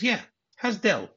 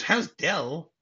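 First: High-pitched pointed question; mock pointed insistence. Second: Higher, disbelieving question; mock incredulous echo. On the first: Wife suspecting an affair, pointedly insistent. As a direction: press the question, pitched well up. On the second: Husband repeating his wife's question, incredulous.

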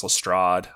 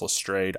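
First: "Lestrade" ending in -ahd; variant pronunciation. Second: "Lestrade" ending in -ayd; alternative pronunciation. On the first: Host comparing name pronunciations for listeners, "Lestrade" said luh-STRAHD. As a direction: say "Lestrade" to rhyme with odd. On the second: Host giving the show's pronunciation, "Lestrade" said luh-STRAYD. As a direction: say "Lestrade" to rhyme with trade. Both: Shown as a demonstration. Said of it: "I've heard it pronounced Lestrade".

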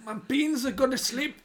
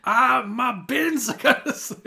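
First: High, bad Scottish accent; a wobbly attempt at Scottish; switching accents clumsily. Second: High, slow, loud Scottish accent with a laugh. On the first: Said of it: "What accent was that?". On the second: Shown as a demonstration. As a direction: have another go at Scottish. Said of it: "let me try it again".

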